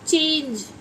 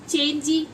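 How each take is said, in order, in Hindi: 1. शब्द का अंत j व्यंजन पर होता है। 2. शब्द के अंत में एक जुड़ा हुआ ee स्वर है।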